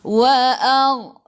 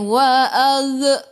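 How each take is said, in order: First: The gh sound ends smoothly without bouncing. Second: The gh sound ends with a bouncing echo. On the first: The speaker calls it right. "Kita nak wa'agh" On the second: The speaker calls it wrong. "jangan melantun, jangan wa'agh"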